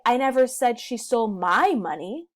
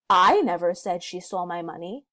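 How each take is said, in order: First: The stress falls on the word my. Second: The stress falls on the word I. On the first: She stole someone else's money. "maybe she stole someone else's money instead" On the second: Someone else said it. "putting the emphasis on the word I"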